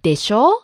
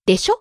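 First: The final vowel is held long. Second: The final vowel is cut short. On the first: It is the full form. "Instead of" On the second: It is the casual form. "we tend to shorten the last vowel, like"

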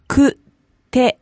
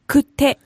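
First: It is said slowly, broken into syllables. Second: It is said fast, at natural speed.

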